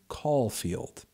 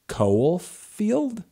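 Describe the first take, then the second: First: The first syllable sounds like 'call'. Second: The first syllable does not sound like 'call'. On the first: "like a phone call and then field" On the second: "I don't know how else you would say it"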